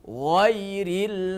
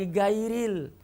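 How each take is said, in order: First: It starts with a thick, emphatic gh sound. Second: It starts with a plain hard g sound. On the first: The speaker calls it right. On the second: The speaker calls it wrong.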